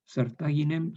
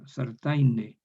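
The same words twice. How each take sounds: First: "sartaginem" with the g kept, higher; Latin form. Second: "Sartaine" with the g lost, sar-tai-ne; evolved form. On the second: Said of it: "se transforma en yod". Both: Shown as a demonstration.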